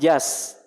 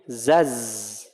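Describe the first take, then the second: First: The letter is voiceless, like an s. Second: The letter is voiced, like a z. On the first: The speaker calls it wrong. "bukan jas" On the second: The speaker calls it right. "tapi zaz"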